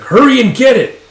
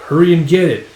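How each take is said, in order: First: High, full shouted order; acted furious shout; angry yell. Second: Raised, firm command; louder, higher, held short of yelling; impatient order. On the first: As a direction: lose patience and yell the command. Order repeated in anger. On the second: Acted. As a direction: order someone off with irritation. Impatient order, first take.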